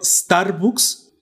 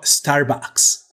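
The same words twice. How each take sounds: First: "Starbucks" said slowly the Spanish way, with an "u" sound in bucks; Spanish-style "Starbucks", ending in "books"; Hispanicized pronunciation. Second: "Starbucks" drawn out the English way, with an "a" sound in bucks; fresón-style "Starbucks", ending in "backs"; posh "fresón" pronunciation. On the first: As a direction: say "Starbucks" as written in Spanish, drawn out. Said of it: "si lo voy a españolizar". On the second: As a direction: show off with an Anglicized "Starbucks", very slow. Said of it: "Si quiero verme acá bien fresón". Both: Shown as a demonstration.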